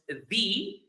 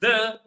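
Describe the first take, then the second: First: It is said the way used before vowels. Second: It is said the way used before consonants. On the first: "It's pronounced the before vowels" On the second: "it's pronounced the before consonants"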